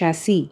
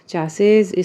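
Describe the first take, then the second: First: It starts with 'sh' and ends in '-see'. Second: It starts with 'ch' and ends in '-ses'. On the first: "इसका pronunciation actually होता है शैसी" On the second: "चैसेस बोल दो, कोई बात नहीं"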